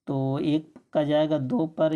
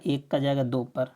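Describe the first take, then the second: First: "दो" stressed, with a falling end on "दो पर"; teacher restating the answer deliberately, stressing "दो"; slow emphatic repeat. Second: Said in the usual way. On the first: Shown as a demonstration. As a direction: repeat the answer slowly so it sinks in, leaning on "दो".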